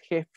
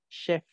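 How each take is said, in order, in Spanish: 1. La palabra empieza con un sonido j. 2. La palabra empieza con un sonido sh. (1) "Aquí no es jef con J" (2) "Chef con SH"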